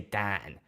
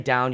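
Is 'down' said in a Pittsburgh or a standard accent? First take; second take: Pittsburgh; standard. First: It is said with a flat 'a' vowel. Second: It is said with a standard 'ow' vowel. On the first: "you say Dan" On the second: "You don't say down"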